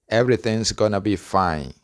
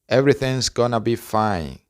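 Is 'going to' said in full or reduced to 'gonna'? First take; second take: reduced; reduced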